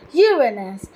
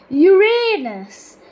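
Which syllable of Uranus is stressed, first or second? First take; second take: first; second. First: The stress is on the first syllable. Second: The stress is on the second syllable. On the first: "with stress on the first syllable" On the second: "with stress on the second syllable and a long A"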